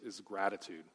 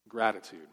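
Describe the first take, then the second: First: Said in the usual way. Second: "Gratitude" repeated louder and alone; emphatic repeat. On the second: Shown as a demonstration. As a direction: hit the word "Gratitude" for emphasis.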